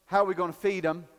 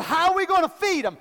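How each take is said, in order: First: "How" leaned on, quick and low; quiet quick question, weight on "How"; stress on HOW. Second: "gonna" pushed, pitched higher, quick; raised quick question, weight on "gonna"; stress on gonna. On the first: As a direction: hit "How", then rush the rest. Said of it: "Jesus says". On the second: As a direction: lift the line and land on "gonna". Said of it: "Jesus said". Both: Retold or imitated.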